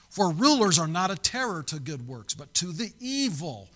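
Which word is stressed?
none. It is read without special stress on but.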